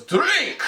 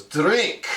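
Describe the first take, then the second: First: Sharp, much higher barked order; angry command. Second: Friendly urging, a little higher; smiling offer. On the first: Commander ordering the guest to drink, angry command. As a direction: snap the order so he obeys. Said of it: "he's really angry". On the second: Commander offering warm beer, smiling invitation. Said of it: "he's smiling at me". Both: Retold or imitated.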